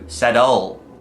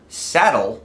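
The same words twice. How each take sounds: First: The stress is on the last syllable. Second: The stress is on the first syllable. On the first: The speaker calls it wrong. "it changes the word saddle ... to saddle" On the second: The speaker calls it right. "which is accented on the first syllable"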